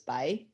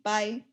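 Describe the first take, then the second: First: It is said with a rising tone. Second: It is said with a high tone. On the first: "this rising tone is, uh, this, I'd pronounce this by" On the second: "if I were to pronounce it in high tone"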